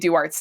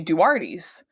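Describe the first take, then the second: First: The final E of the name is silent. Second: The final E of the name is pronounced. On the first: The speaker is a local. "we say Duart's Tavern with a silent E" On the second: The speaker is a visitor. "people say Duarte's"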